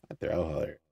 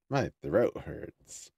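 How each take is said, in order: First: Words run together, slurred; slurred speech. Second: Very slow, each word set apart; slow careful repeat. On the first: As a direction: let the words smear together. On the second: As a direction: correct it slowly and clearly. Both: Real, not acted. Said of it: "I'm slurring my voice so much lately".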